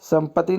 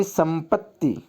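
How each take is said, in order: First: संपत्ति as "sampati", single t; a short single t in संपत्ति; wrong form. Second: संपत्ति as "sampat-ti"; correct form. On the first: Teacher showing the misspelling, संपत्ति with one t. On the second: Teacher correcting it, संपत्ति with doubled t. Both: Shown as a demonstration. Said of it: "संपत्ति नहीं".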